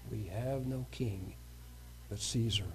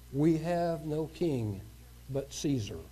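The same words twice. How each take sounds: First: Hushed echo. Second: Said in the usual way. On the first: Acted. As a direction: let the line die away like a grim echo.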